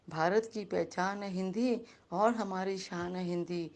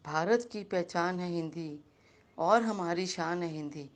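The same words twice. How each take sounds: The two takes are said the same way.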